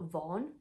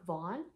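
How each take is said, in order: First: It is said in a British accent. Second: It is said in an American accent.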